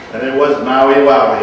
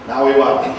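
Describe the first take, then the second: First: Maui Wowie punched louder, falling at the end; stress on Maui Wowie. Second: Said in the usual way. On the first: Shown as a demonstration. Telling the audience about his Maui weekend, stressed and louder. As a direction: lean hard into "Maui Wowie" to stress how good the weekend was.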